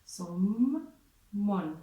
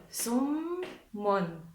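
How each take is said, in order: First: Someone with the m held long, sɔmmɔn; doubled consonant. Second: Someone said with a short single m; pronunciation demo. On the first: Teacher shows the shadda makes the m double. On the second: Teacher shows the class how someone sounds. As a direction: model someone plainly, one m. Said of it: "Si vous entendez bien la prononciation". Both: Shown as a demonstration.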